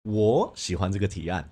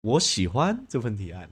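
First: The stress is on 我. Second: The stress is on 喜欢.

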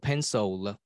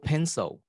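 First: An extra syllable follows the L, Indian style. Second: The word ends plainly, Taiwanese style.

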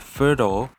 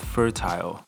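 First: The ending sounds like 'ul', American style. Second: The ending sounds like 'aisle', British style.

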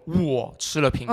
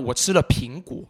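First: The stress falls on the word 我. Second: The stress falls on the word 苹果. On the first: It tells who ate the apple. "谁吃了苹果" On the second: It tells what was eaten. "你吃了什么那我吃了苹果那你自然就把苹果往上抬"

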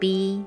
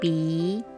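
First: The pitch stays level throughout. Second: The pitch rises at the end.

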